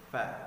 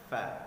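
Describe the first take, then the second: First: It starts with a breathy f sound. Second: It starts with a breathy f sound.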